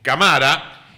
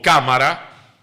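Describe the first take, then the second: First: CaMAra, stress shifted to MA; camara misstressed in the middle. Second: CÁmara, first syllable hit; cámara stressed at the start. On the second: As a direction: punch the CA of cámara. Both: Shown as a demonstration. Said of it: "si no diríamos".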